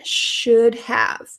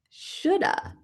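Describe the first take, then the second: First: Both words are said separately and in full. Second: The words blend, ending in an 'uh' sound.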